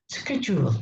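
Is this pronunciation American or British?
American. It is said with an American accent. "but in American"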